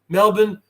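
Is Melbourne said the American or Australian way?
Australian. It is said with an Australian pronunciation. "You guys pronounce it Melbourne"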